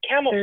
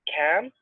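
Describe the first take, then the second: First: It is said at normal speed. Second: It is said slowly, syllable by syllable.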